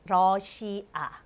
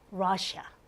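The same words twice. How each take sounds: First: It is said with Korean pronunciation. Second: It is said with English pronunciation.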